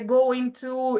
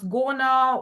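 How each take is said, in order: First: Two full words are said separately. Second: The words are shortened into one quick word.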